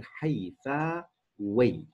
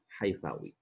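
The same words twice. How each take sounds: First: حيفاوي drawn out slowly, syllable by syllable; slow teaching model of حيفاوي; syllable-by-syllable demonstration. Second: Said in the usual way. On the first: Shown as a demonstration. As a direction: stretch each part of حيفاوي for learners. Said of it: "فالنسب إلى كلمة حيفا بصير". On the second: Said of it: "بصير".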